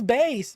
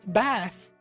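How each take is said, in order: First: The name rhymes with 'base'. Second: The name does not rhyme with 'base'. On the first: The speaker calls it right. "it makes more sense as bass ... It's pronounced based" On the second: The speaker calls it wrong. "I don't know why I always said it as Bass"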